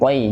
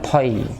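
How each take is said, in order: First: The first consonant is released without a puff of breath. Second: The first consonant is released with a puff of breath. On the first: The speaker calls it right. "jangan sampai ada hamas" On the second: The speaker calls it wrong. "kalau toy itu ada hamasnya"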